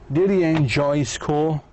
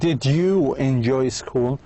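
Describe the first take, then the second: First: The word 'you' is reduced to 'ya'. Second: The word 'you' is said in full.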